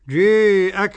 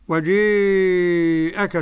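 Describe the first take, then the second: First: The long vowel is held for four counts. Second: The long vowel is held for six counts. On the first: "أربع حركات" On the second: "ست حركات"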